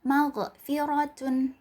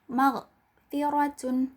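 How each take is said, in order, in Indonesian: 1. Ada vokal tambahan e setelah magh. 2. Tidak ada vokal setelah magh. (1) "Jangan teman-teman membacanya seperti ini" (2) "Yang tepat adalah"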